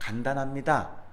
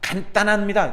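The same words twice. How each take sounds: First: The second syllable starts with a plain d. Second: The second syllable starts with a tense tt. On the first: The speaker calls it right. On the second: The speaker calls it wrong.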